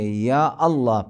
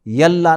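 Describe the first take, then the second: First: A glottal stop separates ya from Allah. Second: The words run together without a glottal stop. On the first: The speaker calls it right. "या अल्लाह पढ़ेंगे" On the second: The speaker calls it wrong. "यल्ला नहीं पढ़ेंगे"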